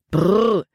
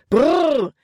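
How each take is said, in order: First: Moderately raised whoa to the horses; called command. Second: High, loud whoa; shouted command. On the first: Nate pulls back the reins, calling out. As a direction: call the team to a halt. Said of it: "rief Nate". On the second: Nate tries to stop the racing horses, shouting. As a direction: yell at bolting horses to stop, pitch way up. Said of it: "schrie Nate erneut". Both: A narrator's reading.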